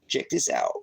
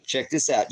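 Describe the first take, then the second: First: Deep voice. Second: Said in the usual way. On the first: Pretend. Showing viewers a satellite map, in a very deep voice. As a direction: drop the voice way down low. Repeats his own line much lower.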